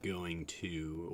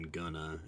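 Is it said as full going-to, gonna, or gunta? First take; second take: going to; gonna. First: Both words are said in full. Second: It is reduced to 'gonna'. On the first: This is the usual full form. "instead of like going to" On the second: This is the common casual form. "or even gonna"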